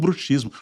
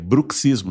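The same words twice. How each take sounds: First: The x is pronounced without the ks sound. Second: The x is pronounced as ks. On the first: The speaker calls it wrong. "não bruxismo. Nunca bruxismo" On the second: The speaker calls it right. "Um deles é C S. É bruxismo"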